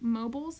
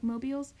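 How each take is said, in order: First: Mobiles with a short buhlz ending; first try at mobiles, MOH-buhlz. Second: Mobiles ending in a long beelz; second try at mobiles, MOH-beelz. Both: Shown as a demonstration. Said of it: "is that what they're called".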